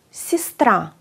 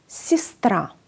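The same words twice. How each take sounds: First: "σιστρά" said as sistra, falling; Russian pronunciation. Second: "Σιστρά" repeated as sistra; Russian pronunciation. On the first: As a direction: model "σιστρά" with i. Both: Shown as a demonstration. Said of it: "Το γε ακούγεται ως ι".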